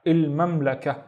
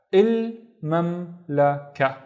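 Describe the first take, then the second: First: Said in the usual way. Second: "Il mamlaka" very slowly, syllable by syllable; split into syllables. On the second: Shown as a demonstration. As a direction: pause after each syllable of "Il mamlaka". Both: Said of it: "let's split this into syllables".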